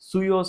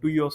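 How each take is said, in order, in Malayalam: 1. ഈ വാക്ക് 'ts' ശബ്ദത്തിലാണ് തുടങ്ങുന്നത്. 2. ഈ വാക്ക് സാധാരണ 't' ശബ്ദത്തിലാണ് തുടങ്ങുന്നത്. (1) "സുയോസ എന്നാണ് ഇതിനെ ഉച്ചരിക്കുന്നത്" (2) "ഞാൻ ഇതിനെ ഉച്ചരിച്ചിരുന്നത് ടുയോസ എന്നായിരുന്നു"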